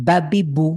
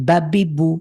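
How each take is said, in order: No difference in how they are said.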